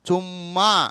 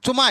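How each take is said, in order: First: The middle m sound is doubled and held. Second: The middle m sound is short and single. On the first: The speaker calls it right. "మాకు మా ఒత్తు రాసినప్పుడే దాని అందం" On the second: The speaker calls it wrong. "ఉత్త మా రాస్తే చుమా అవుతుంది"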